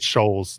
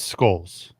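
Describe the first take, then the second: First: The name begins with an 'sh' sound. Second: The name begins with an 'sk' sound. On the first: The speaker calls it wrong. "you call him Scholes, like Doctor Scholes" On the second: The speaker calls it right. "It's Skulls. Please get it right"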